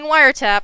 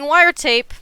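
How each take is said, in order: First: The last syllable has a short 'a' sound. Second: The last syllable has a long 'ay' sound. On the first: The speaker calls it right. "I'm saying wiretap" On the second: The speaker calls it wrong. "I am not saying wiretape, like I did throughout the whole video of the last one"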